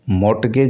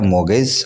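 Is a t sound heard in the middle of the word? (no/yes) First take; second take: yes; no. First: The word is said with a t sound. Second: The word is said with no t sound. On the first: The speaker calls it wrong. "मोटगेज नहीं पढ़ा जाना चाहिए।" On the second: The speaker calls it right. "मोगेज में टी silent है।"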